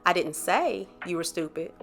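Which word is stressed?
say. The word 'say' carries the main stress. It was implied, not said. "now that means I implied it"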